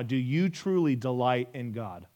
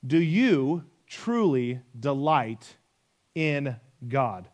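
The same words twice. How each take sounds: First: Said in the usual way. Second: Slow and deliberate, word by word; drawn-out, searching repeat of the question; slow, weighty question. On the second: Real, not acted. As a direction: let each word land, pausing before "in God".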